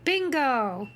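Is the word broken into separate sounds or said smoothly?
smooth. The word is said smoothly as one unit. The reader has recognized the word.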